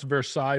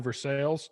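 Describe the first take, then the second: First: It is said the usual French-style way. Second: It is said the local Kentucky way.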